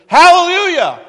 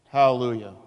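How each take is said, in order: First: It is exclaimed loudly with excitement. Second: It is said flatly, without excitement.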